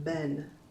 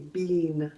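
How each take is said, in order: First: The vowel is short, like in 'ten'. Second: The vowel is long, like in 'seen'. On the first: This is the American pronunciation. "Americans pronounce it ben" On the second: This is the British pronunciation. "in British English they say bean"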